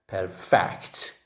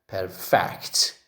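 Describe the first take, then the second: First: The stress is on the second syllable. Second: The stress is on the second syllable.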